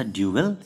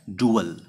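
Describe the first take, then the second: First: ड्यूअल said as "dyoo-el" with a y glide, two clear syllables; duel pronunciation. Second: डुअल said as "doo-ul" with no y glide, short and plain; dual pronunciation. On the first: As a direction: say ड्यूअल as dyoo-el, gliding in a y before the u. (ड्यूअल को "ड्यू-अल" बोलें, य की ध्वनि के साथ) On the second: (डुअल को "डु-अल" बोलें, बिना य की ध्वनि के) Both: Shown as a demonstration. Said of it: "इसका प्रोनाउंसिएशन अलग है".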